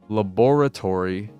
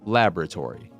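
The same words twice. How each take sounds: First: Every syllable is pronounced, following the spelling. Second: A syllable is dropped, unlike the spelling. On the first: "Is, is that the correct way to say it?" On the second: "even though that's not how it's spelled"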